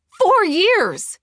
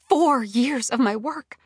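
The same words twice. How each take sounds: First: Very high, loud cry; shouted, drawn-out outburst; outraged shout. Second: Slow, raised, weighty outrage; slow-building indignation; indignant dismay. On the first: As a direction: explode with betrayed fury. Outburst at betrayal. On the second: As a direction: spell out the loss, appalled. Outrage at years of work lost. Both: A narrator's reading.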